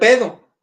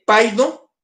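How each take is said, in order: First: The first syllable has the vowel sound 'e'. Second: The first syllable has the vowel sound 'ai'. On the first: This is how the word must be pronounced. The speaker calls it right. "se tiene que pronunciar pedo" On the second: This is how the word is written. The speaker calls it wrong. "así se escribe"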